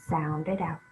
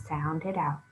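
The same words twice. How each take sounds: Both takes have the same delivery.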